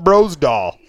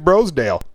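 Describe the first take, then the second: First: The name ends with a 'dahl' sound. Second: The name ends with a 'dale' sound. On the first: "I know you call it Brosdahl" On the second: "I think it's Brosdale"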